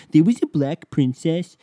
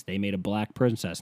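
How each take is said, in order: First: High, loud mock-outraged squeal; mock an indignant fan in a high silly voice; exaggerated high-pitched whine of disbelief; mocking whiny fan. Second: Said in the usual way. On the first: Mocks indignant Disney fans' reply.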